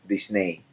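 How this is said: The name is pronounced with Spanish sounds. "when you pronounce it in Spanish, it's Disney"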